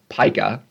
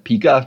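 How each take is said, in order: First: The word does not start like Pikachu's start. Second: The word starts like the start of Pikachu. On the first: The speaker calls it right. "this is pronounced pica" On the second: The speaker calls it wrong. "call it pica, sort of like Pikachu"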